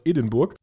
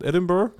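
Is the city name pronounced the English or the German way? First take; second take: German; English. First: The name is said with a German pronunciation. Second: The name is said with an English pronunciation.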